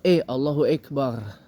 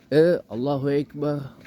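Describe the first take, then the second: First: The E vowel is muted and blurred. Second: The E vowel is heavy and thick. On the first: "E yang disamarin" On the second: "E yang dimedokin"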